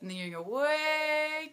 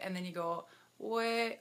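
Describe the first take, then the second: First: "way" drawn long and higher, slowed down; stretched out "way". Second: Said in the usual way. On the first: Shown as a demonstration. Coach showing viewers the swim route, "way" drawn high and long. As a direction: stretch "way" out to show the long distance. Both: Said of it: "okay, I'm gonna go back a little bit".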